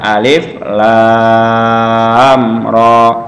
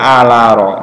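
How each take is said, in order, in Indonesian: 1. Setiap nama huruf diucapkan terpisah dan lengkap. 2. Hurufnya disambung menjadi satu kata pendek. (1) "dibaca alif lam ro ya" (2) "nggak boleh"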